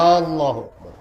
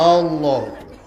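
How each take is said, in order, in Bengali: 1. প্রথম স্বরধ্বনিটি সামান্য টেনে বলা হয়। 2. প্রথম স্বরধ্বনিটি সামান্য টেনে বলা হয়।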